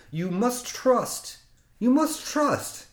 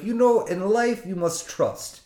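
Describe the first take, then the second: First: Put-on slow, each repeat higher, Russian accent; insistent Russian mantra. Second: Put-on higher-pitched Russian accent, sage advice; imitating the mechanic's life lesson; Russian mechanic wisdom. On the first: Mechanic urging the driver to trust him, slow rising Russian mantra. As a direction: press the mantra home slowly. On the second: Mechanic tells the nervous driver to trust him, Russian accent. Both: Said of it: "and he's Russian".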